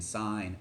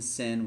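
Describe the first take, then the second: First: The vowel is long, like in 'line'. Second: The vowel is short, like in 'pin'. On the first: The speaker calls it right. "We're saying sine" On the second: The speaker calls it wrong. "We're not saying sin"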